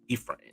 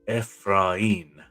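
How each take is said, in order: First: The name is said with English pronunciation. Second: The name is said with Spanish pronunciation. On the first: This is how outsiders say the name. "Some people pronounce it Ephraim, like nurses and doctors" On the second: This is how the family says the name.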